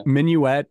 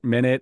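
First: "Minuet" as min-yoo-ET, a bit louder. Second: "minute" as MIN-it with a rising end. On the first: Host comparing the two words, "Minuet" as min-yoo-et. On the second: Host comparing the two words, "minute" as MIN-it. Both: Shown as a demonstration. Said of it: "a Scottish person saying minute might actually sound like minuet".

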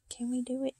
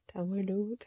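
First: Hushed whisper. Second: Said in the usual way. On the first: Real, not acted. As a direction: murmur to yourself. Whispered attempt.

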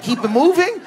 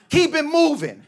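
First: High disbelieving question; incredulous. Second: High mock menacing warning; tough guy warning. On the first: Retold or imitated. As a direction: repeat it in shock. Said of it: "I go". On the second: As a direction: warn him off, pitched up. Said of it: "he goes".

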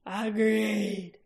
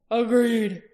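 First: Throaty growl. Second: Firm, loud clipped dwarf agreement; a sharp dwarf's Agreed, said short and loud; dwarf agreeing. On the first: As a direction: growl the word Agreed like a werecat king. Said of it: "drawing the word out into a throaty growl". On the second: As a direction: snap out the word in agreement. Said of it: "said Oric". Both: Acted.

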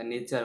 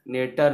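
First: नेचर with ch, nay-char; correct pronunciation. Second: नेटर said with a hard t, nay-ter; wrong pronunciation. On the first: Teacher to students, giving correct nature pronunciation. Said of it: "च के बोलते हैं". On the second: Teacher to students, demonstrating the wrong nature pronunciation. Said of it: "नेटर नहीं बोलते हैं". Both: Shown as a demonstration.

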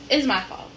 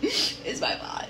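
First: Said in the usual way. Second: Laughing fake sob, low and slow; mock crying. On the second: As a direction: whimper it in a half-laughing mock cry. Blaming herself, repeated.

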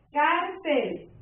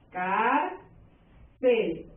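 First: Said in the usual way. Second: "Cárcel" split as "cár... cel" with a pause; two separate beats on "Cárcel"; syllable by syllable. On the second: Shown as a demonstration. Teacher finding the stressed syllable for students, syllable by syllable. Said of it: "sílaba tónica y lleva".

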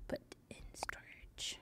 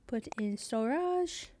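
First: Whispered under her breath. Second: Said in the usual way. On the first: Acted. Streamer repeating a game menu option to herself, whispered. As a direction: hush it out as a private echo.

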